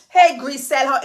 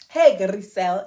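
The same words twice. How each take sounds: First: The R in the name is not rolled. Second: The R in the name is strongly rolled. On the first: The speaker calls it wrong. "You don't say" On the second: The speaker calls it right. "you got to say like, ... Roll the R"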